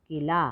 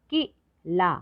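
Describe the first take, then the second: First: Said in the usual way. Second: किला split into short कि, then ला; syllable by syllable. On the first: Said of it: "तो शब्द पढ़ते हैं". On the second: Shown as a demonstration. Teacher showing short ई in किला, syllable by syllable. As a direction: separate किला with a quick short कि. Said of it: "कम समय लगता है".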